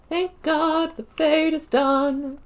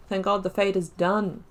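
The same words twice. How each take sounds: First: High and slow, stretching out "Fade"; drawn-out relief. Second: Said in the usual way. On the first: Shown as a demonstration. Gamer repeating to viewers that the Fade is finally over, high and drawn out. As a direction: sing out the relief, dragging "Fade" long and high.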